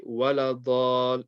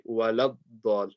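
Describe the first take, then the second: First: "wa la ddal" with the la left open before the Dad; wrong, unjoined lam. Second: "wa la ddal" with la closed firmly onto a doubled Dad; correct, joined lam. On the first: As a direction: slowly say "wa la ddal" without doubling the Dad. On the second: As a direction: join "la" straight into the held d of "ddal". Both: Shown as a demonstration. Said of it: "You have to join the lam to the dad".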